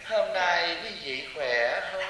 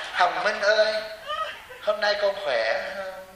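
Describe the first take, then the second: First: Slow, soft, sweet greeting; imitating a gentle monk. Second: Slow, sweet, tender greeting; drawn-out kindly greeting to a disciple; imitating a gentle monk. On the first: Mocking a gentle monk who greets the crowd, slow and sweet. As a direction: coo it softly and slowly like a kindly monk. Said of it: "theo thầy Pháp Hòa". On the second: Imitating a soft monk greeting Hồng Minh, slow and sweet. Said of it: "bà theo thầy Pháp Hòa là".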